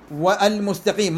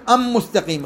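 First: "والمستقيم" with an audible l before m; higher, keep the l in "والمستقيم"; lam pronounced clearly. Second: "أم مستقيم" as am-mustaqim, doubled m; higher, turn the l into a long m in "أم مستقيم"; no l, held m in "أم مستقيم"; lam wrongly merged. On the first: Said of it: "ما أقول". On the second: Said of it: "غلط، غلط،". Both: Shown as a demonstration.

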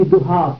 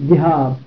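First: ذهاب said dhuhāb, short u in first syllable; non-existent noun form. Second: ذهاب said dhihāb, short i in first syllable; attested noun form. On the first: Teacher shows the form that does not occur, ذهاب as dhuhāb. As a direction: say ذهاب with a u after the dh. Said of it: "ذهب لا يأتي ذهاب". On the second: Teacher gives the form heard from Arabs, ذهاب as dhihāb. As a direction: say ذهاب with an i after the dh. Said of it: "ذهب يأتي ذهاب". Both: Shown as a demonstration.

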